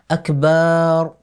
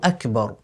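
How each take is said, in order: First: The vowel after the b is drawn out long. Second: The vowel after the b is kept short. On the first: The speaker calls it wrong. "On ne prolonge pas non plus la lettre ba du mot akbar. Ainsi, on ne dit pas" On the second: The speaker calls it right. "on dit bien"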